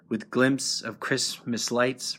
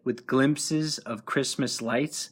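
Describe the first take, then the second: First: Glimpses is squeezed into one syllable. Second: Glimpses is said with its full two syllables.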